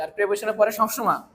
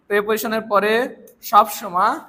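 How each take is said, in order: First: Said in the usual way. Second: প্রিপোজিশনের পরে সবসময় said slowly and louder, rising at পরে; slow emphatic repeat. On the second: Shown as a demonstration. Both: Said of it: "teacher repeats rule for emphasis".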